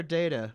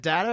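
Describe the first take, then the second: First: DATA pronounced DAY-tuh; first syllable of DATA said like "day"; long-A data. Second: DATA pronounced DAT-uh; first syllable of DATA said like "dat"; short-A data. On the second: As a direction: say DATA with the A of cat. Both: Shown as a demonstration. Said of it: "Is it data or data?".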